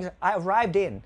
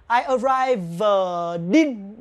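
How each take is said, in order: First: ARRIVED IN run together, ending "din"; quick native linking. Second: ARRIVED IN broken up as "arrive... din"; drawn-out linking demo. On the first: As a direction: link arrived in as a native speaker would. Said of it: "nếu người Tây đọc nhanh". (đọc nối nhanh arrived in như người Tây) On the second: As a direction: stretch arrived, then land the D on in. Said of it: "sẽ luyến sang âm in". (tách chậm arrived, rồi "din") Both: Shown as a demonstration.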